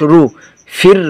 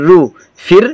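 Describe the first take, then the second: No difference in how they are said.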